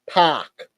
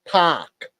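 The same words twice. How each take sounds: First: It is said in an Australian-style accent. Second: The same.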